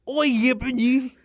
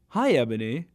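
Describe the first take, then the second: First: It is said in an English accent. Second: It is said in the speaker's usual accent.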